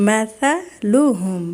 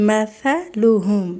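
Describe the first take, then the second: No difference in how they are said.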